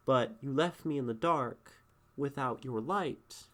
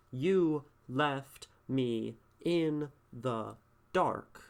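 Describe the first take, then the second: First: Said in the usual way. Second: "You left me in the dark" very slow, every word pressed down; each word weighted. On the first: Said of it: "It's all one thought here". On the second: Shown as a demonstration. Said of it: "these things each have their own weights".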